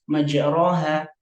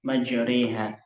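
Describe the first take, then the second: First: The vowel after r is a plain open a. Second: The vowel after r is tilted toward e. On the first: This is how the word is written. "secara khat itu tertulis" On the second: This is how the word is traditionally recited. "dibaca imalah"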